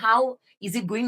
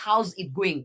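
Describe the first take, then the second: First: The word 'is' is said as a full syllable. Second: The word 'is' is shortened onto 'how'. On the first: "হাউ ইজ it going না বলে" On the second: "একটু short short করেছেন"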